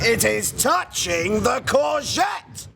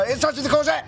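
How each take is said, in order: First: It is said calmly with a steady rhythm. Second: It is said quickly, all run together. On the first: The speaker is calm and proper. The speaker calls it right. "there needs to be a rhythm" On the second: The speaker is too eager. The speaker calls it wrong. "as fast as they can"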